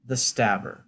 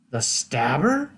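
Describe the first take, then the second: First: Said in the usual way. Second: Slow STABBER with a rising end; incredulous question. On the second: Acted. Questioning the peasant about the Stabber, slow incredulous rise. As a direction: stretch "Stabber" upward into a question.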